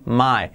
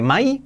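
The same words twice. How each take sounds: First: "my" with a relaxed English glide; native English vowel. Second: "my" as a full Spanish "mai" with clear i; wrong Spanish-style vowel. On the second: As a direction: end "my" on a sharp Spanish i. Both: Shown as a demonstration. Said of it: "nada de my".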